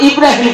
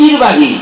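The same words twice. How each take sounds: First: Said in the usual way. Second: ইরবাহি with r moved and final m dropped; mispronounced Ibrahim. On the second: Retold or imitated. Preacher imitating the student's garbled name. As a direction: say ইরবাহি for ইব্রাহিম. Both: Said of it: "ইব্রাহিম কবার পায় না".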